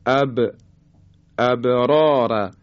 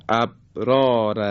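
First: اب with the ب bounced audibly; slow ابرار with an echoing release of ب; qalqalah on ba. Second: ابرار with the ب stopped dead, no bounce; ba without qalqalah. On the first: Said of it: "حرف با ساکن هست". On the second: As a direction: close the ب of ابرار and leave it unreleased. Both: Shown as a demonstration.

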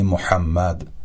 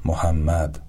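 First: محمد with a throaty ḥ; محمد with a pharyngeal ḥ; correct Arabic ḥ. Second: محمد with an ordinary h; Persian h. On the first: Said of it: "به تلفظ صحیح این کلمات دقت بفرمایید". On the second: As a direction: say محمد with a light breathy h. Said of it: "به جای". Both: Shown as a demonstration.

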